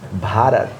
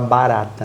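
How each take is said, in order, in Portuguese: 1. Começa com um som de b aspirado. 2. Começa com um som de b simples. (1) "a pronúncia é Bharat" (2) "muita gente fala barata"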